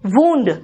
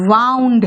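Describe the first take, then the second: First: The vowel is an 'oo' sound. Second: The vowel is an 'ow' sound. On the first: It means an injury. "घाव" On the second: It is the past form of turning or coiling. "यहां pronunciation इसका वाउंड है।"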